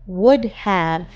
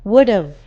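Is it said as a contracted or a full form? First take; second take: full; contracted. First: Both words are said fully and separately. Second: The words are merged into one short word.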